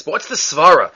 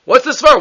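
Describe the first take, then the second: First: Said in the usual way. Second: Higher, pressing the question on SVARA; emphatic repeat. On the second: Shown as a demonstration. Teacher repeats his question to the class, pressing and higher. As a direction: push "Svara" up again, insisting.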